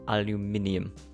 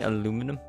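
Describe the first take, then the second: First: It is said a non-American way. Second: It is said the American way. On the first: "aluminium is my way" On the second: "aluminum is the American way of saying it"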